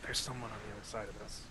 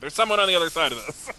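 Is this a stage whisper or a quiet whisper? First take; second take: quiet whisper; stage whisper. First: It is whispered quietly. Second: It is a loud, projected stage whisper. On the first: Only the person nearby is meant to hear. "I'll whisper to the Curie" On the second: Everyone around is meant to hear. "Excuse me, stage whisper"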